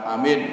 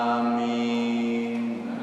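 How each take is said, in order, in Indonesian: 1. Vokalnya dipendekkan dan cepat. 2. Vokalnya ditahan panjang. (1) "Jangan amin. Kalau itu singkatan" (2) "Tapi ini panjang ya"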